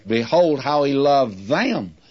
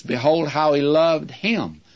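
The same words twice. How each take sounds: First: "them" stressed with a falling tune at the end. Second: Said in the usual way. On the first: Shown as a demonstration. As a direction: land the weight on the final "them" as a correction.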